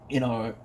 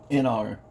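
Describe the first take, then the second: No difference in how they are said.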